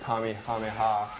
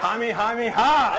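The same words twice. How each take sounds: First: It is said calmly, at normal volume. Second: It is yelled loudly with energy.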